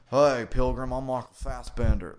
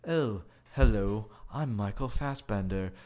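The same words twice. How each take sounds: First: A Texan howdy, done broad and louder; robot's fake Texas accent. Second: Clipped British android greeting; David's posh English robot voice. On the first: Other robot greets in a mock Texas accent. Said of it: "exactly like what an alien robot would think people in Texas sounded like". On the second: Retold or imitated. Robot introduces himself in an English accent. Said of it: "the other robot's like".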